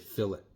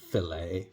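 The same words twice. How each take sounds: First: It is said the British way. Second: It is said the French way.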